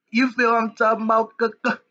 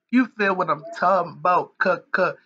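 First: Hyped-up call out. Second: Said in the usual way. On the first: Acted. Vlogger hyping his viewers, pitched high and eager. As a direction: pump up the crowd with the question. Repeats rallying question to viewers.

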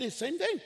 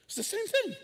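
First: Rising same thing. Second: Thing said much higher, falling; high squeaky same thing. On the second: Pastor repeating it to the church in a high mock voice. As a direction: pitch it way up in disbelief. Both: Real, not acted.

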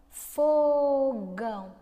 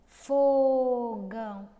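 First: Fogão slowly and louder, stretching fo; drawn-out demo word. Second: Drawn-out demo word. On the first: Teacher drawing out Fogão for the children. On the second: Teacher repeating Fogão so pupils hear the F. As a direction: draw out Fogão again, fo held. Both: Shown as a demonstration. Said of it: "E fogão?".

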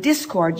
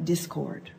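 First: Said in the usual way. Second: "discord" slower and softer, as two words. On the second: Shown as a demonstration. Speaker landing wordplay for the audience, "discord" slowly as two words. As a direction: split "discord" into "dis" and "cord", slowly.

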